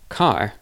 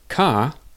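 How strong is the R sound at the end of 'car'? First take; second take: light; absent. First: The final R is present but weak. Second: The final R is dropped completely. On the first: "The R is not completely, it's not very strong, but it's there" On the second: "with no R"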